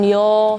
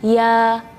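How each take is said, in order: First: The vowel is rounded, like 'oh'. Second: The vowel is open and flat, like 'ah'. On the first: The speaker calls it wrong. "jangan yo, Kalau yo berarti lidah kita tidak datar" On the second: The speaker calls it right. "lidah kita tetap datar"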